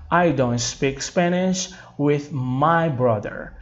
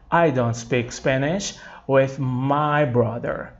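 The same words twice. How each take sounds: First: Slow, clear teacher model read; slow model sentence. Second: Slow, clear repeat for students; slow model sentence repeated. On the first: Teacher reading slowly so students repeat. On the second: Teacher repeating the sentence slowly for students. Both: Shown as a demonstration. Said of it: "Gente, só fazendo isso aqui".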